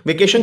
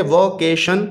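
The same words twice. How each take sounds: First: Said in the usual way. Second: वकेशन broken into three syllables; three separate syllables. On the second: Shown as a demonstration. Teacher shows children the syllable division, वकेशन in three beats. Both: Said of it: "ये बच्चों तीन syllable word है".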